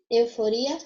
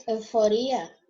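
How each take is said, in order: First: Euforia with the stress on RI. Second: Euforia with the stress on FO. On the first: Teacher gives the Portuguese take, stress on RI in Euforia. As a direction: say Euforia as eufoRIa, rising. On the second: Teacher gives the Spanish take, stress on FO in euforia. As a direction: say euforia as euFOria, falling. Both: Shown as a demonstration. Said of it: "porque vai mudar a sílaba tônica".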